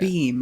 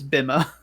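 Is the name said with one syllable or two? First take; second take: one; two. First: The name is said as one syllable. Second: The name is said as two syllables. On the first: The speaker calls it right. "I need to remember that pronunciation" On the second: The speaker calls it wrong. "I always look at it and I think it's Bima"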